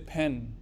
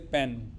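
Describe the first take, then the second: First: The p is released with a puff of air. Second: The p is released without a puff of air. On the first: The speaker calls it right. "you say pen" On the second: The speaker calls it wrong. "you never say pen"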